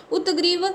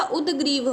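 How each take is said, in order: First: उत्ग्रीव with a t before g; wrong consonant. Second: उद्ग्रीव with a d before g; correct consonant. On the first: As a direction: say उत्ग्रीव as "ut-greev". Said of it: "उत्ग्रीव नहीं होता". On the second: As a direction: say उद्ग्रीव as "ud-greev". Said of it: "उद्ग्रीव होता है". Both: Shown as a demonstration.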